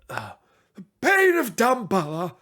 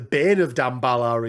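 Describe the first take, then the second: First: It is said in a put-on wizard voice. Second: It is said in a normal speaking voice.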